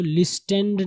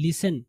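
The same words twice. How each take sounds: First: "listened" with the t sounded, lis-tend; wrong pronunciation. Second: "listen" with silent t, lis-en; correct pronunciation. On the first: Teacher shows what not to read, "listened" with hard t. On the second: Teacher models the right reading, "listen" without a t. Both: Shown as a demonstration. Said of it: "इसको listened नहीं पढ़ेंगे".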